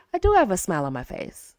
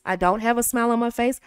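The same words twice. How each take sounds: First: Same line, now smiling; speaking with a smile. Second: Said in the usual way. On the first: Shown as a demonstration. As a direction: smile while you say it.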